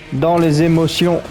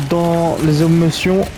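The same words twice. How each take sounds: The two takes are said the same way.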